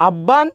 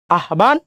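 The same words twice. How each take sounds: First: আব্বান as "abban", doubled b, no h; common mispronunciation. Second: আহ্বান as "ah-ban", h then plain b; common mispronunciation. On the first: Teacher trying another student answer, common mispronunciation. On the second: Teacher trying what students might say, common mispronunciation. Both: Shown as a demonstration. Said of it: "এটার কি উচ্চারণ করেন".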